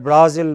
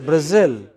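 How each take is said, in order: First: BRAzil, stressed on the first syllable with a full A; wrong first-syllable stress. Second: Brazil, short first vowel and stressed second syllable; correct final-syllable stress. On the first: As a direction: say Brazil with the weight up front. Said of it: "Not at Brazil, but". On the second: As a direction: say Brazil with the weight on the end. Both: Shown as a demonstration.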